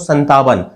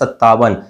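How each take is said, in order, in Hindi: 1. बीच में त से पहले एक नासिक न है। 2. बीच में दोहरी त की ध्वनि है। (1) "आप उसका प्रोनाउंसिएशन उच्चारण करते हो संतावन, लेकिन संतावन नहीं" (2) "इसका सही प्रोनाउंसिएशन उच्चारण होता है सत्तावन"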